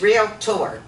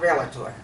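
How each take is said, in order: First: The word is said with two syllables. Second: The word is said with three syllables. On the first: The speaker calls it right. "two syllables" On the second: The speaker calls it wrong.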